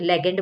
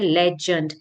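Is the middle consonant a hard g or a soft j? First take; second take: hard g; soft j. First: The middle consonant is a hard g sound. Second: The middle consonant is a soft j sound. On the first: The speaker calls it wrong. "लेग आ रहा है इसमें ... लेकिन इसका मतलब ये नहीं कि हम इसको लेगेंड बुलाएंगे, नहीं" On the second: The speaker calls it right. "इसका प्रोनाउंसिएशन है लेजेंड"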